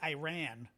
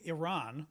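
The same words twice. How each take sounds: First: Iran is said in an altered, dictation-friendly pronunciation. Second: Iran is said with its standard pronunciation. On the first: This is said so voice typing spells the name correctly. "I've got to say Iran for Siri to write the country name correctly" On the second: This is the proper way to say the name. "if I say Iran the right way"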